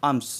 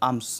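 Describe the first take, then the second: Both takes have the same delivery.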